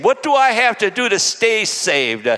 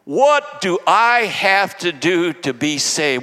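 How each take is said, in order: First: Quicker question, STAY pushed harder; stress on STAY. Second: Slow, deliberate "What do I have to do to be saved"; weighty question on BE SAVED. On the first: Preacher turning the question to believers, with stress on "stay". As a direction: lean on "stay" as the new word. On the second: Preacher putting the jailer's question to himself, slow on "to be saved". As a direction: ask "to be saved" slowly and evenly. Question restated, then changed to stay. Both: Real, not acted.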